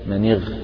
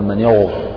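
First: The gh sound is pronounced light and thin. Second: The gh sound is pronounced heavy and full. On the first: The speaker calls it right. "كأنها مرققة" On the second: The speaker calls it wrong. "لا تقل من يغر هذا خطأ"

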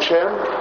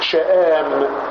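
First: A plain long a follows, with no glottal stop. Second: A glottal stop follows, then a long a. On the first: "يقال شام" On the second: "شآم بالمد، بالهمز والمد"

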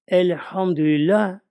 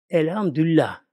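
First: Every sound in the word is clearly pronounced. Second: Some sounds in the word are worn down. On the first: The speaker calls it right. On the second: The speaker calls it wrong.

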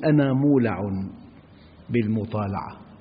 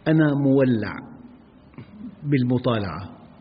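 First: The word is said with plain vowels, mula. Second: The word is said with different vowels, mowalla. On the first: The speaker is fond of reading. The speaker calls it right. "ينبغي أن يقول" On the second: The word refers to a red bull. The speaker calls it wrong. "المولع هو الثور الأحمر"

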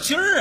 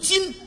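First: The syllable ends with an r-coloured sound. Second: The syllable has no r-coloured ending. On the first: The speaker calls it wrong. "什么叫今儿啊" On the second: The speaker calls it right. "正字读今"

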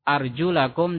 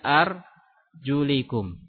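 First: The vowel before 'kum' is 'a'. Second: The vowel before 'kum' is 'i'. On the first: The feet are washed, like the hands. The speaker calls it right. "wa arjulakum fathah" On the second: The feet are wiped, like the head. The speaker calls it wrong. "Mereka membacanya kasroh"

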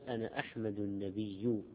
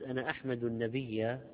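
First: The last word ends with a u vowel. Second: The last word ends with an a vowel. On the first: The speaker claims to be a prophet. "فيؤكد يعرف نفسه بأنه نبي، فتصير أنا أحمد أنا مبتدأ أحمد خبر النبي صفة" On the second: The speaker praises the prophet. "أحمد فعل مضارع مرفوع علامة رفع الضمة، النبي مفعول به"

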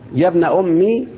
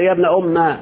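First: The m is followed by a short i vowel. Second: The m is followed by a short a vowel. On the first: "بالكسر" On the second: "بالفتح"

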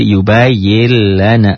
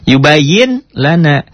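First: The n merges into a doubled l sound. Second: A clear n sound comes before lana. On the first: "Dibacanya menjadi yubayil lana. Seakan-akan di situ ada tasdid" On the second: "Ditulisnya ada bunyi N-nya"

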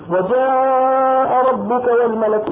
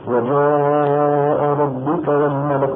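First: It is recited in a high, raised voice. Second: It is recited in a deep, rough voice. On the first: "عم يقرأ بصوت مرتفع" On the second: "عم يقرأ بصوت خشن"

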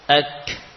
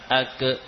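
First: The final k is followed by a puff of breath. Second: The final k is followed by a short vowel. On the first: The speaker calls it right. "ketika lepas lisan kita, maka diikuti dengan nafas" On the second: The speaker calls it wrong. "bukan suara pantulan. Ake atau ate, tidak"

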